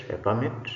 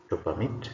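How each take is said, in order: First: A PERmit, noun stress; stress on first syllable. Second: To perMIT, verb stress; stress on second syllable. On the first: Teacher reads the bold noun, first-syllable stress on "permit". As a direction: hit "per" in "a permit". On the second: Teacher reads the bold verb, second-syllable stress on "permit". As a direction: hit "mit" in "to permit". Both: Shown as a demonstration. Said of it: "emphasis is going to be on the words".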